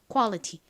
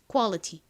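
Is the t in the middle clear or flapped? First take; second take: clear; clear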